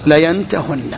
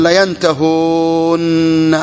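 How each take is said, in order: First: Layantahunna with a short u; waw dropped. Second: Layantahūnna with the ū held very long; long waw before doubled nun. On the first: Teacher gives students the resulting form, waw shortened. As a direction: cut the long ū down to a short one. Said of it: "يحذف، حذفناه". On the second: Teacher shows the intermediate form, waw held long. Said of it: "ماذا يكون؟". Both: Shown as a demonstration.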